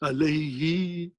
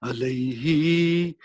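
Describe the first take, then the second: First: The last syllable ends in an 'i' vowel. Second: The last syllable ends in an 'i' vowel.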